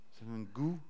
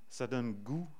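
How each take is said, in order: Both takes have the same delivery.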